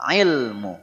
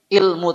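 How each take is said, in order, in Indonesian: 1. Kata ini diawali dengan bunyi ain dari tenggorokan. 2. Kata ini diawali dengan vokal biasa. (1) "tapi ilmu. Ain" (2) "bukan ilmu"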